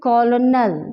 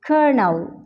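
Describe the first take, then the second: First: The word is said with an L sound. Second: The word is said with an R sound. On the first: The speaker calls it wrong. "This is not pronounce like this कॉलोनल, कॉलोनल यहाँ पे एल नहीं आता" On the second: The speaker calls it right. "यहाँ पे आर का जो sound है वो प्रोड्यूस होता है"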